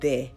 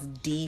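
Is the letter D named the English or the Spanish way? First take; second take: Spanish; English. First: The letter is named with a soft Spanish D. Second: The letter is named with a hard English D. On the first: "it's De" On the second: "a hard D, like how it's D for us"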